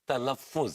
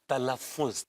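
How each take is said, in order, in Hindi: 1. यह शब्द talaffuz की तरह बोला जाता है। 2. यह शब्द talaffuz की तरह बोला जाता है।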